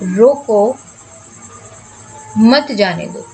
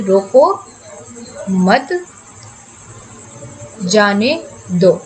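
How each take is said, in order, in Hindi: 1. पहले शब्द के ठीक बाद एक विराम है। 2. दूसरे शब्द के ठीक बाद एक विराम है।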